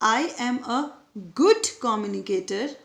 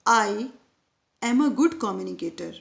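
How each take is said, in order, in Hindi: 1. Stress 'good' शब्द पर पड़ता है। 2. स्ट्रेस 'I' शब्द पर पड़ता है।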